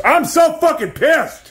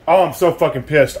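First: Much higher, slow, drawn-out cry of frustration; angry outburst. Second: Said in the usual way. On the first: Real, not acted. Venting to the camera about the wrong dryer cord, real frustrated outburst. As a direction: stretch it out, fed up.

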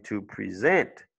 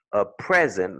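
First: "to present" as to pre-ZENT, slowly, rising at the end; stress on second syllable. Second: "A present" with PREZ stressed and louder, falling after; stress on first syllable. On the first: Teacher contrasting verb and noun, second-syllable stress on "present". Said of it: "ce sera la deuxième qui est accentuée". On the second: Teacher contrasting noun and verb, first-syllable stress on "present". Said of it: "la première". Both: Shown as a demonstration.

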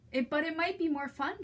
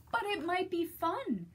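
First: Lightly voiced gentle wiener dog; hopeful Trevor. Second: Said in the usual way. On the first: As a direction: ask sweetly, hoping to play. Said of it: "Trevor said to Pig".

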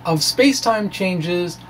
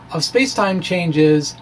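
No difference in how they are said.

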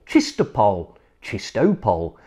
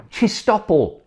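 First: Chistopol settling down low; repeated tries. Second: Chistopol said high, stressed on CHIS; careful try. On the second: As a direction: sound out Chistopol carefully from the top. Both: Shown as a demonstration. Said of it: "have I said that right?".

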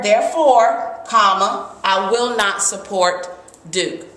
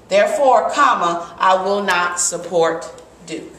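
First: Said in the usual way. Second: Therefore, a small stop, then the rest; pause at the comma. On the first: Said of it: "I pause". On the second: Shown as a demonstration. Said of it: "a comma is really just a natural pause".

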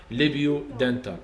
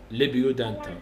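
No difference in how they are said.

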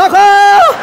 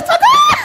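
First: Loud yell rising at the end; yelled cry for help. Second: Very high, drawn-out comic shriek; screamed cry for help. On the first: Client screaming at each wax pull, yelled cry for help. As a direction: belt it out louder and higher, comically. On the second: Client being waxed on the groin, screamed cry for help. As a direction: shriek for help at the top of your range. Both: Retold or imitated. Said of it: "era um grito que eu dava".

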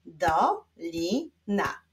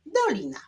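First: "Dolina" slowly, in three separate syllables; slow clapping-out beat on "Dolina"; split into syllables. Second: Said in the usual way. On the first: Shown as a demonstration. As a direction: pause after each syllable of "Dolina". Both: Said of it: "Wyklaszczmy sylaby w wyrazie dolina".

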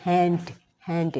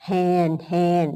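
First: "hand" with a released d at the end; teacher models "hand" with an audible final d; added final d. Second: "hand" said as "han", ending on n; teacher models "hand" as "han"; without final d. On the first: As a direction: say "hand" and sound the closing d. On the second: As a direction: say "hand" with no d at the end. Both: Shown as a demonstration. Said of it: "มีตัวดีขึ้นมาก็เป็น".

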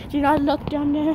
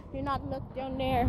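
First: Said in the usual way. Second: Very soft, hushed warning; hushed aside to the dog; near whisper. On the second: Real, not acted. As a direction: breathe it almost silently.

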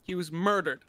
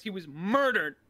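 First: Said in the usual way. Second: "murdered" drawn out with a pitch swell; emphasis on murdered. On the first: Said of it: "I wanna emphasize he was murdered". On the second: Pretend. Mourner insisting it was no accident, heavy stress on "murdered". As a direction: lean hard on the word "murdered". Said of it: "I wanna emphasize".

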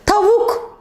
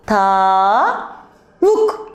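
First: Said in the usual way. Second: "tavuk" slowly split, "ta" drawn out rising, then "vuk"; syllable by syllable. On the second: Shown as a demonstration. Teacher helps children hear A, "tavuk" in drawn-out syllables. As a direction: stretch "tavuk" into two separate syllables, ta... vuk.

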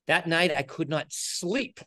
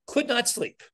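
First: Said in the usual way. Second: "could not sleep" pitched much higher; emphatic repeat. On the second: Retold or imitated. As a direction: lift "could not sleep" up high in dismay.

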